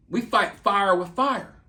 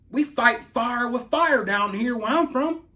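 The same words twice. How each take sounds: First: Said in the usual way. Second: Slow, drawn-out Southern country accent; a mock-tough Southern country boast; put-on country accent. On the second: Shown as a demonstration. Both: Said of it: "I could put on my country accent".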